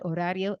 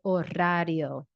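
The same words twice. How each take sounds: First: The R is a single light tap. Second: The R is strongly rolled and trilled. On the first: The speaker calls it right. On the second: The speaker calls it wrong.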